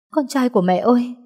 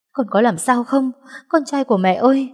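First: Higher, pleading call to her son; anxious mother's cry. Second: Higher, rising worried calling; cling to the boy, calling in fear; anxious mother's cry. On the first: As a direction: call him, scared and relieved. (tiếng gọi con lo lắng, cao giọng) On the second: (mẹ gọi con hốt hoảng, cao giọng) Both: Acted. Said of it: "run rẩy sờ mặt nó".

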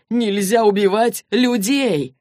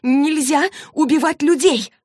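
First: Slow, emphatic echo of a protest; emphatic agreement. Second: High, loud, drawn-out outcry; gasping protest. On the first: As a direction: repeat it back deliberately, slightly raised. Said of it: "согласился Джейс". (медленно и с нажимом соглашаясь) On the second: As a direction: cry out in shocked protest, stretching the words. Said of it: "Клэри аж задохнулась". (возмущённый высокий возглас, задыхаясь) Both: Acted.

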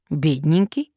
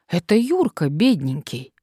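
First: "Бедненький" rising sharply at the end; questioning echo. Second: Said in the usual way. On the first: A narrator's reading. Listener querying the nickname, "Бедненький" with rising questioning tune. Surprised echo of previous word.

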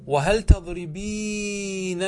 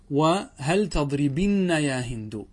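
First: "تضربينن" with long ee and every n sounded; emphatic slow demo of "تضربينن", ending -eenanna; original form. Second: "تضربن" with short i and doubled n; drawn-out demo of "تضربن", short i before nn; resulting form. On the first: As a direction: draw out "تضربينن" loudly as tadribeee-nanna. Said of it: "هذا أصله". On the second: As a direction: say "تضربن" slowly, ending -binna. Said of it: "هذا بعد أن حذفنا الياء". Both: Shown as a demonstration.

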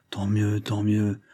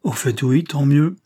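First: Hesitant, bewildered repetition; stammered. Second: Louder, rising tant mieux; snapping out of the daze into indignation; getting worked up; indignant. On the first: A narrator's reading. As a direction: mumble it, still stunned by the news. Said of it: "balbutia le brave négociant". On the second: Acted. Grocer recovers, grows indignant.

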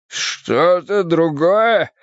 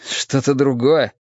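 First: Very slow, higher, stretched question; drawn-out, pained astonishment; incredulous echo. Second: Said in the usual way. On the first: Acted. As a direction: throw the words back in disbelief. Poisoned man echoes in disbelief.

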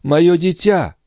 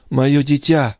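First: High anguished cry of a mother; babbling cry. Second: Babbling. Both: Acted. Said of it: "лепетала Андреа".

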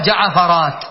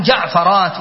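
First: جعفرات as ja-ʿa-fa-rāt, a after ʿayn; wrong added vowel. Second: جعفرات as jaʿ-fa-rāt, no vowel after ʿayn; correct unvowelled second letter. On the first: Teacher shows what isn't said, جعفرات as ja-ʿa-fa-rāt. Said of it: "ولا يقال جعفرات". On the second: Teacher gives the name's plural, جعفرات as jaʿ-fa-rāt. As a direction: close the first syllable of جعفرات: jaʿ-fa-rāt. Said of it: "فإن الجمع سيكون جعفرات". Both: Shown as a demonstration.

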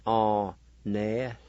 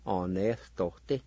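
First: "Honestote" in slow, separate syllables, breath before the consonant; aspirated pronunciation. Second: "honestote" as one word with an H-like breath before the consonant; aspirated pronunciation. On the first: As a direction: break up "Honestote" with an H-like puff before the t. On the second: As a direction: join "honestote", keeping the puff before the t. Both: Shown as a demonstration. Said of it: "there's kinda like an aspiration".

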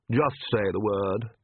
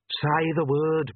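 First: Slow, lightly voiced suave vampire; vampire's offer. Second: Higher, drawn-out urging; prompting. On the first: Vampire offering captive revenge, slow and measured. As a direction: offer it slowly in an even pitch. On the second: Inner voice prompting captive girl, high insistent urging. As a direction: egg her on, high and slow. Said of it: "Perdita prompted". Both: A narrator's reading.

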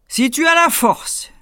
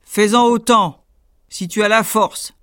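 First: Much higher, louder, slow giant; dim slow booming giant. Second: Louder, gruff giant challenge; challenging giant. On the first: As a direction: boom the dare slowly. Giant repeats challenge. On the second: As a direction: dare him like a giant. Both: Acted.

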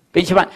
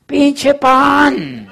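First: Said in the usual way. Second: Mocking young man. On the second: Young man mocks his bread business.

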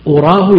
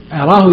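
First: "أراه" opening on u, uraahu; damma on hamza. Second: "أراه" opening on a, araahu; fatha on hamza. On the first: Teacher glossing it as supposing, "أراه" said uraahu with damma. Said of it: "وإذا ضمت همزة". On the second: Teacher glossing it as knowing, "أراه" said araahu with fatha. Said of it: "فإذا فتحت همزة أرى". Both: Shown as a demonstration.

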